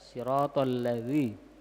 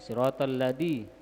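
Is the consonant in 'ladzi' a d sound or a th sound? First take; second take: th sound; d sound. First: The consonant is a soft th sound. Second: The consonant is a hard d sound. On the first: The speaker calls it right. "Dia padahal bisa za" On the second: The speaker calls it wrong. "siratal ladzi biddal"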